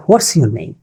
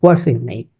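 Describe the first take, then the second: First: What's with an h, "hwats"; wrong pronunciation. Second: What's as "wots", no h, lower; correct pronunciation. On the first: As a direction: breathe an h into what's. (what's-এ ভুল হ ধ্বনি) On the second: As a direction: start what's directly on w. (what's, হ ছাড়া শুদ্ধ উচ্চারণ) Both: Shown as a demonstration. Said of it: "not what's your name".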